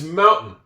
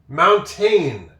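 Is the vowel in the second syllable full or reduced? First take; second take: reduced; full. First: The second syllable has a weak, reduced vowel. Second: The second syllable has a full, sounded vowel. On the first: The speaker calls it right. "But no, it's mountain. That's basically a silent A" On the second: The speaker calls it wrong. "you'd think this, this would be mountain"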